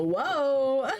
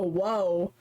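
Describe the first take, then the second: First: "whoa" stretched long and swooping higher; the wrong, over-the-top "whoa"; overdone whoa. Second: "whoa" kept fairly level and contained; intended whoa. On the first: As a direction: exaggerate "whoa" with a big slow swoop. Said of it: "not like a whoa". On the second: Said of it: "Probably more like a whoa". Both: Shown as a demonstration.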